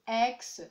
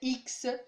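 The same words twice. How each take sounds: First: The letter name is said the English way. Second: The letter name is said the French way. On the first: The speaker calls it right. "c'est X" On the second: The speaker calls it wrong. "pas comme en français X"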